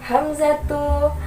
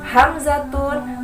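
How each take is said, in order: First: It ends in a plain u vowel. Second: It ends with an added n sound. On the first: The speaker calls it right. "harus berharokat doma. Domanya harus satu" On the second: The speaker calls it wrong. "Salah besar"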